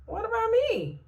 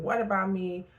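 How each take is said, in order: First: High, pleading whine; mock a sorry-for-yourself cry; plaintive self-pity. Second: Said in the usual way. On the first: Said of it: "And sometimes you're like". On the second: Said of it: "That's a fair question".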